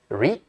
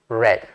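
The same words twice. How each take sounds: First: The vowel is long, like 'reed'. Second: The vowel is short, like 'red'. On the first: It is the present-tense form. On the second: It is the past-tense form.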